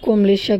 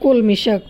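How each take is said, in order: First: The word is pronounced komlish, with m before l. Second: The word is pronounced kolmi, with l before m. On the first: The speaker calls it wrong. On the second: The speaker calls it right.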